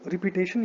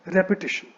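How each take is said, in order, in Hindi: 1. दूसरा syllable repeat में 'peat' जैसा सुनाई देता है। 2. दूसरा सिलेबल छोटी 'pi' आवाज़ है। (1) "इसको रिपीटेशन या फिर इस तरह से कुछ नहीं बोलना है" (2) "इसको बोलना है रेपिटेशन"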